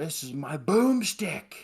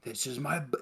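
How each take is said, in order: First: Slow, louder and higher hammed-up hero line; Ash quote. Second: Said in the usual way. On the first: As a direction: proudly show off the boomstick, drawn out. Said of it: "He's like". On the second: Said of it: "it's part of the reason".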